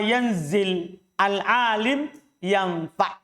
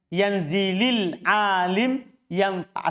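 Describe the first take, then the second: First: The first two words are said with a break between them. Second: The first two words run together with a linking vowel. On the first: "Kalau antum baca putus begitu" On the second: "Itu kasroh karena mau disambung bacaannya"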